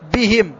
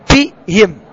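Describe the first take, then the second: First: The b is voiced with a firm, full stop. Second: The b is weak, without full voicing or stop. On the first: The speaker calls it right. "أن تقرأ الباء قراءة صحيحة ويعطى لها الجهر والشدة والقلقلة" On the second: The speaker calls it wrong. "هذا القارئ يقرأ الباء في موضع الميم ولا يعطيها صفاتها اللازم"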